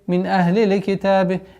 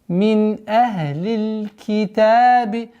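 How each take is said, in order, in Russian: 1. Звук L произносится с добавлением короткого гласного. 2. Звук L произносится чисто, без добавления гласного.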